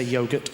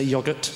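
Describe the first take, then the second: First: "yogurt" with a long O, YOH-gurt; Australian pronunciation. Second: "yogurt" with a short O, YOG-urt; British pronunciation. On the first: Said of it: "Different pronunciations". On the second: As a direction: say "yogurt" as YOG-urt, first vowel as in "dog". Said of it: "we say yogurt". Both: Shown as a demonstration.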